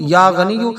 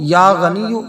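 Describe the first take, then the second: First: The word ends with a final 'u' vowel. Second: The word ends with a final 'u' vowel.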